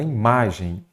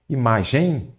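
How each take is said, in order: First: "imagem" with the stress on the middle "ma"; teacher's correction, "imagem" stressed on "ma"; corrected stress. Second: "Imagem" said with the stress pushed onto final "gem"; wrongly placed stress. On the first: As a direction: say "imagem" as i-MA-gem, weak final syllable. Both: Shown as a demonstration. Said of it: "não, fala imagem".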